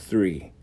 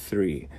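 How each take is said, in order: No difference in how they are said.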